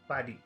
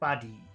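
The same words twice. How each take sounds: First: Both sounds in the word are short. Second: The first sound is short, the second long. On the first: "If we made both of the sounds in number one short" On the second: "If we did short long"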